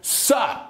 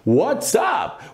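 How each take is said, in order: First: It is said fast, squeezed into one syllable. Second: Both words are said fully as two syllables.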